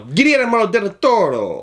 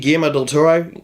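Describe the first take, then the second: First: The name is said in an exaggerated native-style accent. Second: The name is said in a plain English way. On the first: The speaker calls it right. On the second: The speaker calls it wrong.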